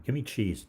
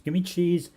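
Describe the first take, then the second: First: Mildly acted demand, pitched up; firm retold order, not yet shouted; acting out a fed-up order, raised pitch; insistent demand. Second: Loud, high-pitched mock demand; retold outburst, voice jumping up high; exasperated shout. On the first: Worn-down order, first take. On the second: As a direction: shout the order as if at wits' end. Same order repeated, escalating.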